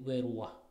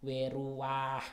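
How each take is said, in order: First: The a vowel before the h is short. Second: The a vowel before the h is long. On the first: The speaker calls it right. "tapi menjadi weruah. Jadi a nya sangat pendek" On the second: The speaker calls it wrong. "Jadi dia tidak dibaca weruah gitu"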